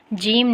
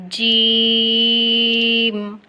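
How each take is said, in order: First: جیم said short and quick; جیم without its full length; too short jeem. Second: جیم with a very long level "ee"; جیم stretched to its full measure; lengthened jeem. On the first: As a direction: cut the long "ee" of جیم short. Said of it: "جیم نہیں کرنا". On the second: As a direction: hold the vowel of جیم, then close on m. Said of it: "تھوڑا سا لمبا کر کے پڑھنا ہے". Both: Shown as a demonstration.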